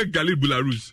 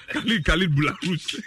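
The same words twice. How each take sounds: First: Said in the usual way. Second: Khalid Boularus said with a laugh, rough and mangled; laughing mangled name; rough mock pronunciation. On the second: Shown as a demonstration. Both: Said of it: "that one wa so rough".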